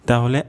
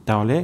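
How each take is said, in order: The two takes are said the same way.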